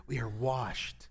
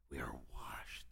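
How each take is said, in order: First: Said in the usual way. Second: Breathy hushed whisper of the line. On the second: Shown as a demonstration. Pastor whispering the truth to his congregation. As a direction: whisper it close, barely voiced.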